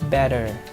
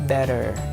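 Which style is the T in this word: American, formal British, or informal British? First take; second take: American; American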